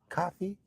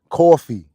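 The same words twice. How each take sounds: First: It is said in a non-New York accent. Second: It is said in a New York accent. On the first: "You hear out of town and they come in" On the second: "New Yorkers say it right"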